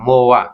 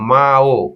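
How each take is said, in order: First: It glides from o into a as one syllable. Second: It is split into two separate syllables, ma then o. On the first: The speaker calls it right. "এটা হচ্ছে সব থেকে কি সঠিক উচ্চারণ।" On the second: The speaker calls it wrong. "এটা সঠিক উচ্চারণ হবে না, এটা কি হবে? ভুল হবে।"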